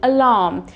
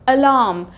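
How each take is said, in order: No difference in how they are said.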